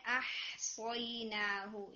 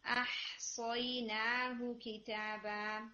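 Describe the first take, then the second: First: أَحْصَيْنَاهُ said slowly with hamza and ha not clear; unclear hamza and ha. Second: أَحْصَيْنَاهُ with a crisp hamza and a breathy, clear ha, slowly. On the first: Teacher shows the student's unclear أَحْصَيْنَاهُ, hamza and ha blurred. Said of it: "یہ تھوڑا واضح نہیں تھا". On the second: Teacher models أَحْصَيْنَاهُ with hamza and ha both clear. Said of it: "Make sure کہ حمزہ and ہا دونوں clear ہوں". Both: Shown as a demonstration.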